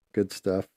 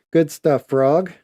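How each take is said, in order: First: Said in the usual way. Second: Louder, higher cheer for Frog; excited cheer. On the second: Real, not acted. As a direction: call it out, pumped up.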